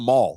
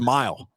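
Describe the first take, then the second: First: The vowel is a flat, drawn-out 'ah'. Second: The vowel glides as a full 'eye'. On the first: "what's a mall?" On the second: "It's a mile, right?"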